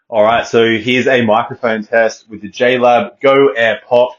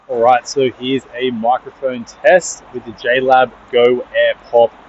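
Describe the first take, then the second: First: The voice is heard against a quiet background. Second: The voice is heard against loud traffic noise. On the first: "in a nice quiet room" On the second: "on a nice busy highway here at the moment. So it's really loud"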